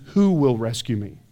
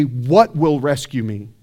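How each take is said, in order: First: Who low and pressed, falling at the end; Who leaned on, the right question; stress on Who. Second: What said slowly with weight, the wrong question; What pressed first, a measured contrast; stress on What. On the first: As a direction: hit Who as the key word. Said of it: "He said the phrase". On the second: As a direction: lean on What, slow and low. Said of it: "Paul didn't just say". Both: Shown as a demonstration.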